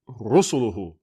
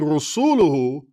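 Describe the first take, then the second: First: The stress falls on the first syllable. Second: The stress falls on a later syllable. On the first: The speaker calls it right. "The accent is on the very first" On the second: The speaker calls it wrong. "You're saying Rasuluhu"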